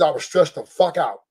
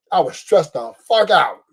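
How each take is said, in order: First: Said in the usual way. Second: Slower, laughing through it; laughing repeat. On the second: Real, not acted. Telling the crowd about Dodgers stress, slow and laughing. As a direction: laugh as you say it again.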